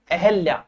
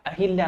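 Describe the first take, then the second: First: अहल्या as e-hel-yaa, no i; correct pronunciation. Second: अहिल्या with an i, a-hil-yaa; quiet अहिल्या, hi in the middle; wrong pronunciation. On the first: Teacher answering own question, careful pronunciation. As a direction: softly say अहल्या without an i after h. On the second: Teacher dismissing the mistake, mispronounced demo. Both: Shown as a demonstration. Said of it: "अहिल्या नहीं होता है".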